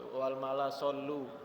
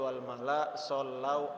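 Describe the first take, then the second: First: The last word ends with a plain 'u' sound. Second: The last word ends with an 'au' sound. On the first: The speaker calls it wrong. "itu banyak yang salah di situ" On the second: The speaker calls it right. "yang betul"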